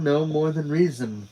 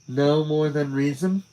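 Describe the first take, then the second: First: It ends falling, like a statement. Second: It ends rising, like a question.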